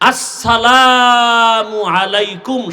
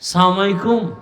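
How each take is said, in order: First: The greeting is said fully as two words. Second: The greeting is run together and clipped short. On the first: The speaker calls it right. "শুধু এই দুইটা শব্দ এটা পারে না" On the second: The speaker calls it wrong. "সালাম দিতে পারে না"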